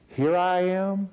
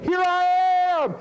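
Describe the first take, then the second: First: It is said flatly, without emotion. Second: It is said with eager excitement.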